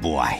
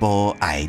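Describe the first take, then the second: First: It is said fast, merged into one syllable. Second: It is said as two separate full syllables.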